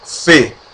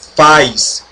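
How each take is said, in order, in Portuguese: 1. A vogal é um som de e simples. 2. A palavra termina com som de s. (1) "se pronuncia F" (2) "não se pronuncia faz"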